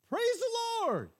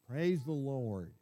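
First: It is said in a bright, excited way. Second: It is said in a flat, bored way.

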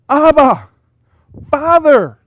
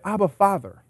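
First: It is cried out with strong excitement. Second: It is said calmly and flatly.

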